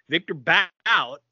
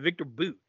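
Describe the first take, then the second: First: The surname's vowel rhymes with 'out'. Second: The surname's vowel rhymes with 'boot'. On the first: This is the older pronunciation of the name. "They recently changed his name from Victor Bout" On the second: This is the newer pronunciation of the name. "to Victor Boot"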